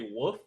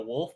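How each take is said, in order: First: The word is said with the L sound dropped. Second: The word is said with a clear L sound. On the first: "they literally say woof" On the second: "they're talking about a wolf"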